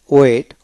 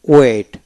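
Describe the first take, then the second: No difference in how they are said.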